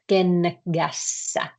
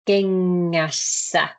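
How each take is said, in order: First: The middle consonant is a hard k sound. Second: The middle consonant is a soft ng sound. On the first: The speaker calls it wrong. "not kengässä. Can you hear the difference? Not, this is wrong" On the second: The speaker calls it right. "And it becomes uh, kengässä"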